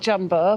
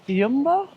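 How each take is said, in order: First: The name begins with a J sound. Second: The name begins with a Y sound. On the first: The speaker calls it wrong. "not Jumbo" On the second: The speaker calls it right. "it's actually pronounced Yumbo"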